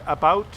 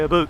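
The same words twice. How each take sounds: First: It is said in a standard non-Canadian accent. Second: It is said in a Canadian accent. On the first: "some people say" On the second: "Canadians say"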